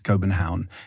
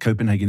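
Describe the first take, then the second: First: The name is said with Danish pronunciation. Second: The name is said with English pronunciation. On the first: The speaker calls it right. "it's Copenhagen, and it's got a K" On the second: The speaker calls it wrong. "it's not Copenhagen"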